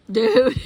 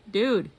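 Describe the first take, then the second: First: High, very loud rising cry; incredulous shout. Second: Louder, falling exclamation of disbelief; disbelieving exclamation. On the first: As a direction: blurt it out at full volume, pitch jumping up. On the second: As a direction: say it firmly, letting the pitch fall. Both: Real, not acted. Reacting to the show pick, building.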